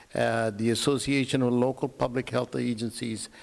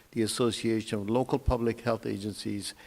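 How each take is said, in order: The two takes are said the same way.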